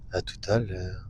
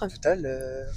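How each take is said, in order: First: It is said in a sensual voice. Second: It is said in a normal voice.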